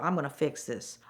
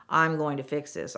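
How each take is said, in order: First: Said in the usual way. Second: "going to" said in full, every word distinct; emphatic repeat. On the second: Retold or imitated. Saleswoman promising heated customer she'll fix it, emphatic.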